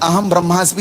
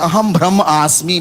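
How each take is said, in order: First: Brahma and asmi are joined into one word. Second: Brahma and asmi are said as separate words. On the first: The speaker calls it right. "मैंने कहा अहम ब्रह्मास्मि" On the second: The speaker calls it wrong. "बोले अहम ब्रह्म आस्मि"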